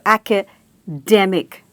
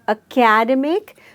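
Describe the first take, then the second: First: The stress is on the third syllable. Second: The stress is on the second syllable. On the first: The speaker calls it right. "there is a stress on the third syllable" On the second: The speaker calls it wrong. "so we stress on the second syllable"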